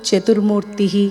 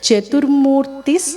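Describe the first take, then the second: First: The word ends in a plain vowel. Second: The word ends with an s sound. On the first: The names are said one by one, separately. "విడదీసి చెప్పేటప్పుడు" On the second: The whole line is recited joined together. "మొత్తం లైన్ని కలిపి చెప్పేటప్పుడు"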